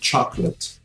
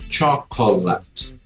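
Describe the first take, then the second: First: The middle o vowel is left silent. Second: The middle o vowel is clearly pronounced. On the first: The speaker calls it right. "é chocolate. Tem um O no meio do caminho que ele tá ali só de figura" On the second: The speaker calls it wrong. "eu não falo chocolate"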